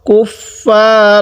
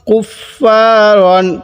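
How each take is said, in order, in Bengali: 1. শব্দটি n ধ্বনি ছাড়া শেষ হয়। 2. শব্দটি n ধ্বনি দিয়ে শেষ হয়।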